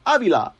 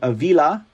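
First: The name is pronounced in a Spanish way. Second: The name is pronounced in an English way. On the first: The speaker calls it right. "what kind of Hispanic am I" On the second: The speaker calls it wrong. "I'm saying it wrong"

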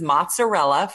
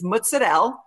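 First: It is said with a standard American pronunciation. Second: It is said with an Italian-American pronunciation. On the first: This is how most other people say it. "for you white folks" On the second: This is how the speaker's family says it. "there are a few words that she pronounces"

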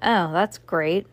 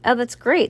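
First: It is said flatly, without enthusiasm. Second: It is said in a livelier, plain reading tone.

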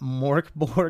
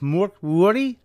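First: The final sound of borg is a hard G. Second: The final sound of borg is like a Y. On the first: "I've just been calling it Morkborg" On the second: "Apparently the G is more of a Y"

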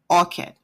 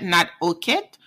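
First: The vowels are pronounced open. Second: The vowels are pronounced closed. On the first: The speaker calls it right. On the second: The speaker calls it wrong.

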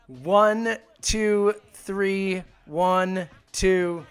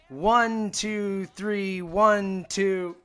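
First: The count is said slowly. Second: The count is said fast.

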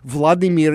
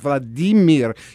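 First: The name is said with an American pronunciation. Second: The name is said with a Russian pronunciation. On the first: The speaker calls it wrong. "Vladimir is pronounced by you Americanskis" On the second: The speaker calls it right. "it's Vladimir in Russian"

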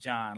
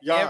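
First: The name begins with a J sound. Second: The name begins with a Y sound. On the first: The speaker calls it wrong. "they will definitely be on your head about pronouncing it John" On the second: The speaker calls it right. "it is Yawn. Like, Yawn"

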